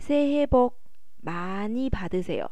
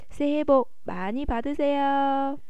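First: It is said in a flat, even tone. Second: It is said in an excited, lively tone. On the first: A serious, proper New Year greeting. "一本正经，刚刚哈哈老师说的새해복많이받으세요是可以的，平平的" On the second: An enthusiastic, happy New Year greeting. "就是比较激动的"

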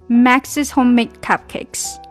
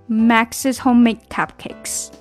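Both takes have the same delivery.

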